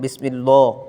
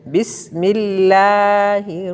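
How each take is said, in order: First: The L sound is heavy and full. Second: The L sound is thin and light. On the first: The speaker calls it wrong. "लाम को मोटा नहीं करना" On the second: The speaker calls it right. "हम बारीक पढ़ेंगे"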